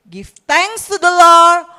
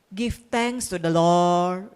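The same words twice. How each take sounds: First: It is said with joyful, energetic intonation. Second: It is said with flat, unvaried intonation. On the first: The speaker calls it right. "suatu ungkapan yang riang gembira, bersemarak" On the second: The speaker calls it wrong. "itu bukan kalimat yang diucapkan dengan intonasi yang flat"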